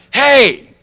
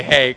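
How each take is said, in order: First: High, loud, buddy-style hey; breezy casual greeting. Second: Said in the usual way. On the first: Shown as a demonstration. A casual hey to his sponsor, high and loud. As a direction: toss off a chummy Hey. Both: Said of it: "I didn't say".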